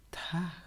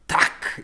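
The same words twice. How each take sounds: First: 'Tak' breathed out very softly; soft Tak. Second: 'Tak' spat out hard and louder, no voice; harder Tak. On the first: Cousin imitating the too-soft 'Tak'. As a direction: mimic a gentle, much quieter 'Tak'. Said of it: "Like, you speak so softly". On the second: Overcompensating learner forcing a harsh Icelandic 'Tak'. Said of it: "It's gotta be harder". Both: Retold or imitated.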